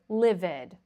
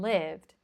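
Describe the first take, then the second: First: The ending is an extra syllable, like id. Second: The ending is a plain d sound, no syllable. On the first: The speaker calls it wrong. "these verbs are not moved or livid, okay? That's incorrect" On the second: The speaker calls it right. "It's moved and lived"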